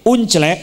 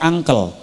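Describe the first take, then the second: First: It is said letter by letter, as spelled. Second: It is said the English way, with 'a'.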